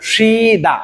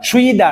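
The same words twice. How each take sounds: First: সিদা with a pure long "shee", no w-glide; correct pronunciation. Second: সুইদা with a "shwee" glide at the start; mistaken pronunciation. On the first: Teacher correcting how learners read the word, correct pronunciation. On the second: Teacher warning learners off a wrong reading, mistaken pronunciation. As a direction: say সুইদা, rounding the first syllable into "shwee". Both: Shown as a demonstration. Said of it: "শব্দটার উচ্চারণ হবে সিদা".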